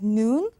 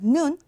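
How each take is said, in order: First: The vowel is held long. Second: The vowel is kept short. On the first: It means snow. "If you pronounce noon long" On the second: It means eyes. "if you pronounce it short"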